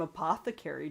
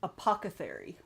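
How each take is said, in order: First: "Apothecary" with TH second, K after: uh-POTH-uh-kerry; correct pronunciation. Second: "apothecary" with K and TH swapped: uh-POCK-uh-therry; wrong pronunciation. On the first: Streamer liking the series' name, correctly pronouncing "Apothecary" uh-POTH-uh-kerry. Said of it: "I pronounced that name wrong". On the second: Streamer admitting an old habit, mispronouncing "apothecary" as uh-POCK-uh-therry. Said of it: "I always pronounced it". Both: Shown as a demonstration.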